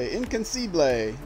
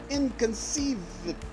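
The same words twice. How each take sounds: First: The word is said in a poor French accent. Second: The word is said in a plain English accent.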